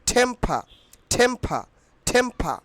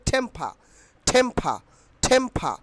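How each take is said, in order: Both takes have the same delivery.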